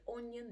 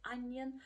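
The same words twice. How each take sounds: First: "onion" with a round O, "ON-yun", as a learner error; mispronounced onion. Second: "onion" said "UN-yun", opening like "up"; correct onion. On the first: Teacher showing learners a pronunciation error, "onion" mispronounced with an O sound. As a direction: say "onion" wrongly, starting it like "on". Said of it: "if you say onion instead of onion". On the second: Teacher correcting the learners' error, "onion" said with an "uh" sound. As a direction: say "onion" properly with a short "uh" first. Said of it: "instead of onion". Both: Shown as a demonstration.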